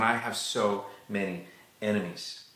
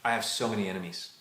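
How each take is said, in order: First: A subdued, heavy-hearted prayer; weary lament. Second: Said in the usual way. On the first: Acted. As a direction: draw out SO MANY ENEMIES with pauses. David's old prayer repeated for effect.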